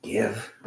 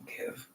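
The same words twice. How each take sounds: First: Said in the usual way. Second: Whispered. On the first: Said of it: "a good equestrian learns". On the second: Shown as a demonstration. Showing a light touch on the reins, whispered. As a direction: give whispered, very soft. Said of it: "the reins are very light".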